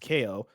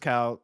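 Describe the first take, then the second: First: The name is said as two syllables, like kay-oh. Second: The name is said as one syllable, like cal. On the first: The speaker calls it right. "actually it's pronounced K O" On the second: The speaker calls it wrong. "I originally pronounced it as Cal"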